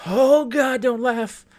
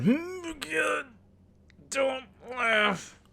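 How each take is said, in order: First: High, loud inner plea; mock panic. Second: Very high, drawn-out squeak; straining not to laugh. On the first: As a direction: plead loudly with yourself in a high voice. Acted panicked inner voice, holding back laughter. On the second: Retold or imitated. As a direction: squeeze out a high plea to keep from laughing.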